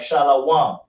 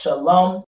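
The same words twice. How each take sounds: First: The word is said with a w sound. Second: The word is said without any w sound. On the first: The speaker calls it wrong. "A lot of people try to pronounce the W like shalom" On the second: The speaker calls it right. "It's pronounced shalom. The W is silent"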